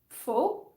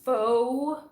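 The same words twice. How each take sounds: First: The vowel sound is kept short. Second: The vowel sound is drawn out long.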